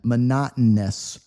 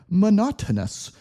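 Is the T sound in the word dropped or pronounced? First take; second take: dropped; pronounced. First: The T sound is dropped and blends into N. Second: The T sound is clearly pronounced. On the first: The speaker calls it right. "Replace it with an N instead" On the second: The speaker calls it wrong. "we don't say monotonous"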